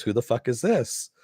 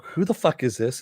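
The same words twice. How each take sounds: First: Quoted comeback with "this" pitched up; retold retort. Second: Quoted question, evenly stressed; retold demand. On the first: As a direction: stress on THIS, pitch jumping up at the end. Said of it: "And he goes". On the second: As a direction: ask "Who the fuck is this?" with the last word kept down. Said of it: "Janice is like".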